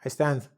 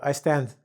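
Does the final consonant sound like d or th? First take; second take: th; th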